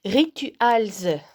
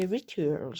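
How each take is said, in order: First: Rituals spelled out slowly in French sounds, ri-tu-als; over-clear French reading of Rituals; French pronunciation. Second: Rituals in a put-on English accent; Rituals, English-style pronunciation. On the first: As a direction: say Rituals louder, syllable by syllable, French-style. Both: Shown as a demonstration. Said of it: "pour celles et ceux qui n'auraient pas bien compris mon super accent".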